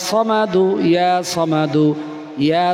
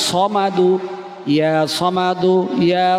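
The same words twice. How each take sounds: Both takes have the same delivery.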